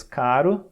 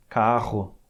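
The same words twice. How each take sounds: First: Caro with one quick tapped r; single tap r. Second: Carro with a strong rolled or throaty rr; strong double r. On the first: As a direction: say caro with a light single flick of the tongue. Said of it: "a gente fala em português caro". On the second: Teacher contrasts the strong rr of carro with caro. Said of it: "o duplo R é um R mais forte". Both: Shown as a demonstration.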